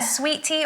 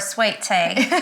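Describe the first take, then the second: First: It is said in a plain, non-Southern accent. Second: It is said in an exaggerated Southern accent.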